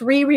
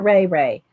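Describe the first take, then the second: First: Both syllables have an 'ee' vowel sound. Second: Both syllables have an 'ay' vowel sound. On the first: The speaker calls it wrong. "I like saying Riri, but I'm probably wrong" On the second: The speaker calls it right. "It's probably Ray Ray"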